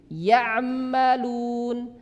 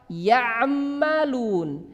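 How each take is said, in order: No difference in how they are said.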